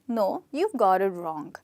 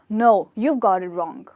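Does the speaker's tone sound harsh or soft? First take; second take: soft; harsh. First: The tone is soft and pleasant. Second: The tone is harsh and blunt. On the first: The speaker is correcting the listener kindly. The speaker calls it right. "that's a pleasant way of saying the same thing" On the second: The speaker is being rude to the listener. The speaker calls it wrong. "then it's very rude"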